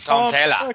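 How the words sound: The name is said in an Australian accent.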